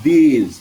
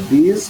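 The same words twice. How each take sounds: First: THESE with a long ee, louder and falling; long vowel. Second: THIS with a short i, tune lifting; short vowel. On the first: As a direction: stretch the ee in THESE firmly. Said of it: "দীর্ঘইকার উচ্চারণ একটু বেশি হয়". (THESE-এ দীর্ঘ ঈ, জোরে টেনে) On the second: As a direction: keep the i in THIS brief. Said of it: "রস্বইকার উচ্চারণ একটু কম হয়". (THIS-এ হ্রস্ব ই, ছোট করে) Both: Shown as a demonstration.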